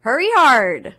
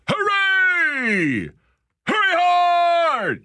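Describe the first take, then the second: First: Half-hearted curling call; curling skip yelling. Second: High, loud, drawn-out skip yell; curling skip yelling. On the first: Pretend. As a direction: call it across the ice, but hold back a little. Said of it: "give me, Brittany Greenslade, please, a big hurry, hurry hard". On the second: Shown as a demonstration. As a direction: belt it down the ice like a skip. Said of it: "you gotta go".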